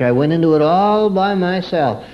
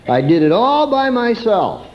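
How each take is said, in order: First: "all" raised and pressed in "all by myself"; stress on all. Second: "all" lifted high and leaned on; stress on all. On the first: Preacher repeating the lesson, "all" stressed. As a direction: lean on "all". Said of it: "I created it all for myself". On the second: Preacher driving home personal blame, "all" stressed. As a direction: hit "all" high and hard. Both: Shown as a demonstration.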